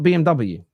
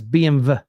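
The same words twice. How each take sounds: First: The letters are said with English letter names. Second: The letters are said with German letter names. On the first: The speaker calls it wrong. "it's not" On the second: The speaker calls it right. "Germans don't pronounce the"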